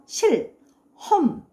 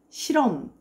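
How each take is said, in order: First: Each syllable is said separately and distinctly. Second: The syllables run together with a weakened h. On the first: This is deliberate careful pronunciation. "또박또박 발음해서" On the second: This is natural everyday pronunciation. "이렇게 연음이 되죠"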